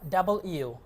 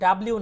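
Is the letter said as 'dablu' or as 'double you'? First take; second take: double you; dablu. First: The letter is said fully as 'double you'. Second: The letter is run together as 'dablu'. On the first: The speaker calls it right. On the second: The speaker calls it wrong. "এটা ডাব্লিউ না"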